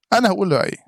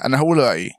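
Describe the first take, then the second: First: أنا pushed higher, firm fall on رأيي; insist, landing on أنا; emphatic repeat, higher on أنا; stress on أنا. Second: Said in the usual way. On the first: Real, not acted.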